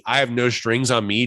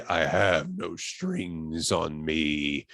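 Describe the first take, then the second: First: Said in the usual way. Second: Very slow, low, quiet menace; James Spader. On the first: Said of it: "James Spader's voice is the most mini". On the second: Retold or imitated. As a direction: draw it out softly and low, full of menace. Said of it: "the most menacing voice I've ever heard".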